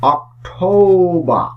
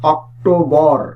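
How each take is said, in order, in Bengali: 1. শেষের র ধ্বনিটি নীরব থাকে। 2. শেষের র ধ্বনিটি উচ্চারিত হয়। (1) "এটির সঠিক উচ্চারণ হচ্ছে অক্টোবর" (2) "আমরা এই মাসটির উচ্চারণ করে থাকি অক্টোবর"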